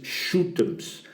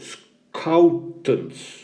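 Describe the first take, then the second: First: The name starts with a sh sound. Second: The name starts with an sk sound. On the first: The speaker calls it wrong. "not what you would perhaps first guess is shootums" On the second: The speaker calls it right. "School out, scoutants"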